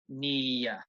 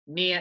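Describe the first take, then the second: First: It is said slowly, stretched into two syllables. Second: It is said quickly, as a single syllable. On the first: "if you say this very slowly, I think you can probably say it's two syllables" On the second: "at natural speed when you're speaking English, near is only one syllable"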